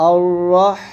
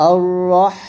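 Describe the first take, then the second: Both takes have the same delivery.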